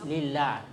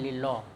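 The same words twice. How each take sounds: First: The L sound is light and thin. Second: The L sound is heavy and thick. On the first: The speaker calls it right. "nah itu tipis" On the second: The speaker calls it wrong. "jangan lillah ya"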